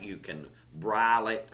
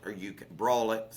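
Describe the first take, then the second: First: Broil said as "brile" in a country accent; country pronunciation. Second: Said in the usual way. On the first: Real, not acted. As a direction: let broil slide into "brile", Southern style. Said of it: "my country accent".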